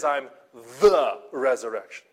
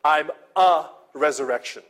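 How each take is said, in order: First: "I'm the resurrection" with "the" leaned on and a bit louder; stress on the. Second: "I'm a resurrection" with "a" leaned on and a bit louder; wrong version, stress on a. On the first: Pastor shows Jesus' real words, stressing "the". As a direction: weigh "the" as the right reading. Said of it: "He says". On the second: Pastor shows what Jesus did not say, stressing "a". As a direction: weigh "a" to show the wrong reading. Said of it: "Jesus doesn't say". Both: Shown as a demonstration.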